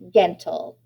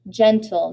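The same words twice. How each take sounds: First: The word starts with a hard g sound. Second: The word starts with a soft j sound. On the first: The speaker calls it wrong. "not a g, hard G" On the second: The speaker calls it right. "we're using a j, soft G"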